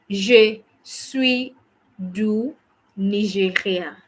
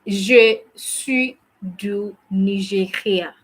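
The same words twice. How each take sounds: The two takes are said the same way.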